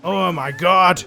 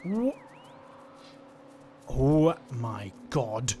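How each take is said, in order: First: Loud, drawn-out exclamation of delight; thrilled outburst. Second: Low, slow, stunned exclamation; hushed awe. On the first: Player overwhelmed by the baby creature, loud thrilled outburst. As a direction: belt it out slowly, overwhelmed with delight. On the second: Player takes in the baby creature, low stunned awe. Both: Real, not acted.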